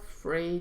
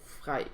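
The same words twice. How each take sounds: First: The name is said with an English pronunciation. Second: The name is said with a Danish pronunciation.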